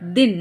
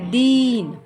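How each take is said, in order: First: The vowel is short and quick. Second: The vowel is long and stretched. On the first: The speaker calls it right. "दिन को क्या पढ़ते? दिन" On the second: The speaker calls it wrong. "ना कि दीन"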